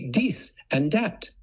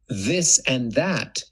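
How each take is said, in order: First: The words begin with a hard d sound. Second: The words begin with a soft th sound. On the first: The speaker calls it wrong. "you would say dis and dat" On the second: The speaker calls it right. "instead of a T H, this and that"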